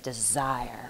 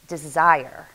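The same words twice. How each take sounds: First: It is said in a lower voice. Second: It is said at normal pitch.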